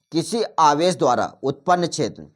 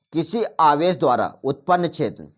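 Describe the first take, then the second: The two takes are said the same way.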